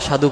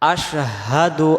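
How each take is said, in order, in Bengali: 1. শব্দে সাধারণ s ধ্বনি আছে, h নেই। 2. শব্দে sh ধ্বনি আছে, তার পরে h।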